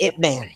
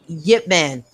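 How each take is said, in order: First: The name begins with a plain vowel. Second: The name begins with a 'y' sound. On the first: This is the form used in English. The speaker calls it wrong. "They couldn't pronounce it, so they put it Ip Man" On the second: This is the name's original form. The speaker calls it right. "his real pronunciation is actually not I P. It's actually Y I P"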